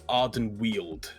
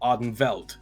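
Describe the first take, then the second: First: The second part starts with a W sound. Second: The second part starts with a V sound. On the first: This follows how the game's makers say it. "from how I've seen the developers pronounce it" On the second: This reads the name as if it were German. "I pronounce that with a V"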